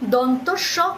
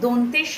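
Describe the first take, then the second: First: The first part ends in an 'o' sound. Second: The first part ends in an 'e' sound. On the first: The speaker calls it right. "এই স এর উচ্চারণটা কিন্তু দন্তস্ব" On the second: The speaker calls it wrong. "যে ভুলটা চিরাচরিতভাবে শুনি"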